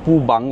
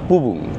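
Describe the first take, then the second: First: The second syllable has an 'a' vowel. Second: Both syllables have a 'u' vowel. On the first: The speaker calls it wrong. "সেগুলো ঠিক নয়" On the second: The speaker calls it right. "সঠিক উচ্চারণ"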